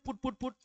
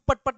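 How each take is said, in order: First: The vowel is short and rounded, as in foot. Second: The vowel is open and unrounded, as in cup. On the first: The speaker calls it right. "इसको बोलते हैं पुट पुट पुट" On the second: The speaker calls it wrong. "इसको पट पट नहीं कह सकते"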